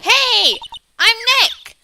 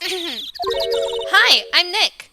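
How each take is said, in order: First: It is said much louder, almost shouted. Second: It is said at a quiet, normal volume.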